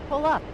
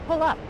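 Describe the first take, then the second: No difference in how they are said.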